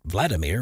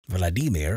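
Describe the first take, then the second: First: The name is pronounced the anglicized Western way. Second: The name is pronounced the Russian way. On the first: It is the form used in the West. "more Western world" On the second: It is closer to the original Russian. "more accurate to Russians"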